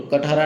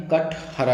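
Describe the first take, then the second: First: कटहरा run together with a plain t; wrong form. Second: कटहरा slow and split, kath, hara; correct form. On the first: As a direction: say कटहरा as kat-hara, quickly joined. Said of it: "कटहरा नहीं है". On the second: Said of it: "ठठेरा वाला ठा आता है". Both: Shown as a demonstration.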